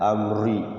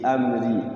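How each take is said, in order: First: The r sound is thick and heavy. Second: The r sound is thin and light. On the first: The speaker calls it wrong. "tidak begitu ya, tidak tebal" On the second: The speaker calls it right. "Tarqiq itu tipis"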